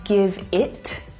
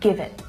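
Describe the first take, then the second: First: The final T is released with air. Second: The final T is stopped without air. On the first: The speaker calls it wrong. "I'm not saying give it" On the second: The speaker calls it right. "a stop T, ... I'm not letting the air go afterwards"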